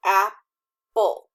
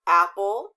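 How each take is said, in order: First: Apple broken into "ap" and "ple", louder; apple with a clear pause between syllables; split into syllables. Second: Said in the usual way. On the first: Shown as a demonstration. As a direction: say apple as two separate loud beats. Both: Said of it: "split them correctly".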